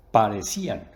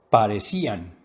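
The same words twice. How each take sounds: First: "Parecían" said louder, landing on "cí"; stress on the I. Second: "Parecían" said louder, with the "cí" stressed and a falling end. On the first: Teacher modelling the accented weak vowel, firm and clear. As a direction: lean on "cí" in "Parecían". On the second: Teacher repeating the example after the rule, firm and clear. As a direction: hit "cí" in "Parecían" and let it fall. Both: Shown as a demonstration. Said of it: "la fuerza de la voz cae sobre la vocal débil".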